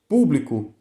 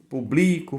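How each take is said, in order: First: The stress is on the first syllable. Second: The stress is on the second syllable. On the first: "se você quiser, por exemplo, público, você precisa de acento" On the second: "ela vai ser é, paroxítona"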